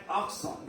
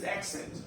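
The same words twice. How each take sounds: First: "accent" the French way, nasal ending; French pronunciation. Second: Said in the usual way. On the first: Shown as a demonstration. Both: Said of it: "that means accent".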